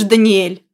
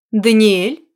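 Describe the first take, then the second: First: Stunned, louder, falling; the name as a shocked plea. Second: Calm courteous question; cool and civil, a light rise; even, polite. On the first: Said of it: "Потрясённая заявлением мужчины". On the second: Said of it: "Её голос был ровным, учтивым". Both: Acted.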